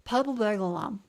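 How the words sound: It is said in a casual everyday voice.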